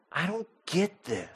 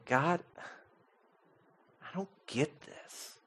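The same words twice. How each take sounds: First: Quiet rising plea. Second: Barely audible, softer lament to God; hushed despairing prayer. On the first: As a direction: let the plea start to rise. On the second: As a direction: breathe it out in despair. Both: Retold or imitated. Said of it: "Abram was crying out to God".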